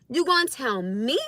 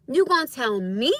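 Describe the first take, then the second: No difference in how they are said.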